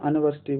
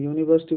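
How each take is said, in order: First: The word begins with an 'uh' sound. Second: The word begins with a 'yoo' sound. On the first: The speaker calls it wrong. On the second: The speaker calls it right.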